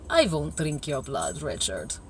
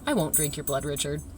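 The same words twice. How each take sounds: First: It is said with a put-on vampire accent. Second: It is said in plain, friendly English.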